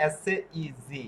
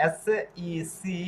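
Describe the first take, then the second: First: জি said with a buzzing z; contrasting জি against সি; z sound. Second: সি said with a clear hissing s; slow, sound সি with a sharp s; slowly contrasting সি against জি. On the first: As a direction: voice the z in জি clearly. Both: Shown as a demonstration. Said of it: "বাংলাটা উচ্চারণ দুরকম দাঁড়াচ্ছে".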